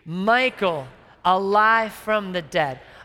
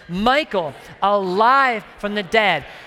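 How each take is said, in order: First: It is said with moderate, ordinary energy. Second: It is said loudly with strong energy. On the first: The speaker calls it wrong. "that was okay" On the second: The speaker calls it right. "I'm going to say this with some strength"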